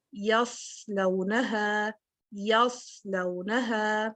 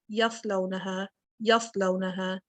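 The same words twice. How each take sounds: First: یصلونہا slowly, with a clear hiss on the ص; whistled saad. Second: یصلونہا quicker, with the ص cut short; clipped saad. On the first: Teacher reciting with the whistling quality: careful tajweed. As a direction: hold the hiss in یصلونہا before the vowel. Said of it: "اگر ہم یہ وسل نہیں لے کے آئیں گے". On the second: Teacher showing the wrong way without whistle: cut short. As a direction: say یصلونہا with no hiss held. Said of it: "cut down کر دیا میں نے". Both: Shown as a demonstration.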